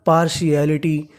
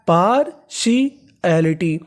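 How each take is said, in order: First: Said in the usual way. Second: partiality very slow, broken into parts; drawn-out teaching pronunciation of partiality; syllable by syllable. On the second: Shown as a demonstration. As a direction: sound out partiality piece by piece for learners. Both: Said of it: "तो पूरी meaning क्या बनी".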